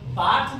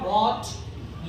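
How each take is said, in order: First: It starts with a b sound, lips pressed. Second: It starts with a w sound, lips rounded. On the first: The speaker calls it wrong. "बात नहीं बोलेंगे" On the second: The speaker calls it right. "Lips should be round circle, ओंठ गोल होके बोलेंगे"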